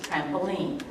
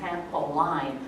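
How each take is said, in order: First: The last syllable sounds like 'lean'. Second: The last syllable sounds like 'line'. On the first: The speaker calls it right. "but what we say is trampoline" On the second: The speaker calls it wrong. "it looks like line"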